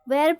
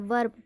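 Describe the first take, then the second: First: The vowel is a full 'eh' sound. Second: The vowel is a short 'uh' sound. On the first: The speaker calls it wrong. "वर्ब नहीं पढ़ते" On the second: The speaker calls it right. "वर्ब पढ़ते हैं, अ का sound होता है"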